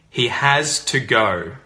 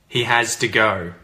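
First: Each word of 'has to' is said separately. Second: 'Has to' is contracted and linked like 'hasta'. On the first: "I say the sentence first clearly" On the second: "contract it and say it with the pronunciation connected speech"

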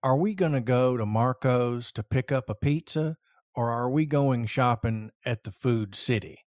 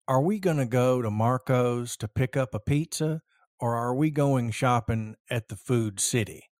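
First: It is spoken with a general American accent. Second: It is spoken with a general American accent.

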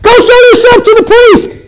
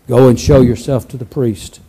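First: It is said in a happy, lively way. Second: It is said solemnly and softly.

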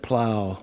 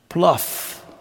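First: The word rhymes with cow, with no final f. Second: The word rhymes with cuff, ending in f. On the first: "Instead of plow" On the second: "it gets pronounced pluff"

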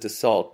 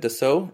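First: The name is said with an American pronunciation. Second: The name is said with a French pronunciation. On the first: The speaker calls it wrong. "I think I'm using the ignorant American pronunciation" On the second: The speaker calls it right. "since it's a French company, that's the way to pronounce it"

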